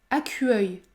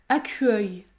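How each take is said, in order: The two takes are said the same way.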